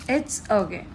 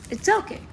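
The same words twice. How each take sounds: First: Said in the usual way. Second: It's okay jumps higher, rising tune; high reassurance. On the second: Real, not acted. Fan comforting herself about the missing card, high and rising. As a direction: lift "okay" up bright and high as self-consolation.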